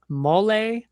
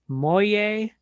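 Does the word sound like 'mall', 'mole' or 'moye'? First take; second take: mole; moye. First: The word sounds like mole. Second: The word sounds like moye.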